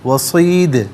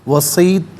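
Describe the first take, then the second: First: The final d bounces with an echoing release. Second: The final d stops flat with no echo. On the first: The speaker calls it right. "आवाज़ लौटती हुई महसूस होनी चाहिए" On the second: The speaker calls it wrong. "गलत"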